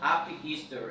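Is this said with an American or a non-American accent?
American. It is said with an American accent. "I really want to pronounce like an American"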